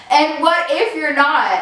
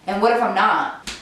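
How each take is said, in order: First: Mocking echo. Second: Said in the usual way. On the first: Girlfriend echoes boyfriend's words back, mocking and indignant. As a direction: echo "what if you're not" back, higher and sharper.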